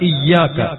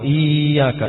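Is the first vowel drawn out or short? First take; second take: short; drawn out. First: The first vowel is short before a doubled y. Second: The first vowel is drawn out long. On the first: The speaker calls it right. "ഈയാക്ക അല്ല, ഇയ്യാക്ക" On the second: The speaker calls it wrong. "ഈ നീട്ടിയിട്ട് ഓതും, അത് തെറ്റാണ്"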